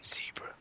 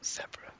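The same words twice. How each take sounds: First: Zebra is said with an American pronunciation. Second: Zebra is said with a British pronunciation. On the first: It is said as a compromise for the other person. "I'm saying zebra" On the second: It is the speaker's own usual way. "not zebra"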